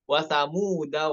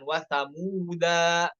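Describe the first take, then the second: First: The vowel after the d is kept short. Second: The vowel after the d is lengthened. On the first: The speaker calls it right. "Huruf dalnya tidak dibaca panjang" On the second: The speaker calls it wrong. "bukan dibaca dua harokat, bukan"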